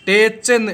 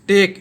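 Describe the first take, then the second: First: The word ends with a ch sound. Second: The word ends with a k sound. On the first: The speaker calls it wrong. "अगर टेच पढ़ते हैं तो same हो जाता" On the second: The speaker calls it right. "इसको टेक पढ़ते हैं"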